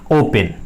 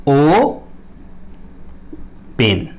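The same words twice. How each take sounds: First: Said in the usual way. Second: "ओ", long pause, then "पेन"; split into syllables. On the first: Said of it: "ऐसे लिखा रहेगा आपका". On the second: Shown as a demonstration. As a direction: say "ओ ... पेन" as two separate syllables. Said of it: "इसमें दो syllable".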